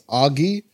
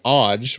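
First: The name is said as two syllables. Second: The name is said as one syllable. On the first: The speaker calls it right. "but it's Augie" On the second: The speaker calls it wrong. "it looks like Odge"

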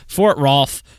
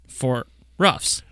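First: The name sounds like 'Ralph', with an l. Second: The name rhymes with 'cuffs', with no l. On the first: The speaker calls it right. "they say Ralphs" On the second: The speaker calls it wrong. "It's probably not pronounced Ruffs"

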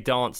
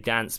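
First: The word is said in a southern English accent. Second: The word is said in a northern English accent. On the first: "How I say dance because I'm from the south" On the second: "You say dance because you're from the north"

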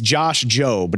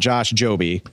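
First: The surname is said as one syllable. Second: The surname is said as two syllables. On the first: The speaker calls it right. "It's Josh Jobe" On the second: The speaker calls it wrong. "not Josh Joby"

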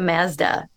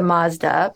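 First: The first vowel is made at the front. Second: The first vowel is made at the back. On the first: "you can take it to the front" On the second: "I'm going to take it back"

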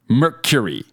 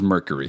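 First: It has a clear, full 'cure' sound in the middle. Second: It starts like 'mirror' with a weak middle part. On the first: The speaker calls it right. "A little bit more cure-y? ... Yes" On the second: The speaker calls it wrong. "Because you say mirror"

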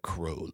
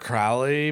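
First: The name is said the enthusiasts' way. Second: The name is said the common American way. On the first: "if you get around a bunch of Crowley people, they're like Crowley" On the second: "As an American, I say Aleister Crowley"

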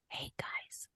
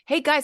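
First: It is said softly in a whisper. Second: It is said aloud in a normal voice. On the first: The speaker calls it right. "So bringing it down by whispering to them" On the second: The speaker calls it wrong. "instead of like"

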